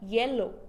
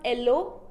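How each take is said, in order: First: The word starts with a clear Y sound. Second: The word starts without a Y sound. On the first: The speaker calls it right. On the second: The speaker calls it wrong.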